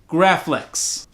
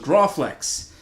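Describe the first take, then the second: First: The first vowel sounds like 'a' in 'cat'. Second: The first vowel sounds like 'aw' in 'law'. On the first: The speaker calls it right. "So I'm here to correct that" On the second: The speaker calls it wrong. "I thought that was the proper way of saying uh, Graflex was Grawflex"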